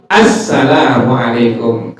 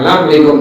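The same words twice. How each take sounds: First: Assalamualaikum slow and complete; every syllable of Assalamualaikum; careful proper salam; correct full greeting. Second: Assalamualaikum slurred as lamlikung; clipped lazy Assalamualaikum; sloppy greeting. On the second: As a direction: careless salam. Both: Shown as a demonstration.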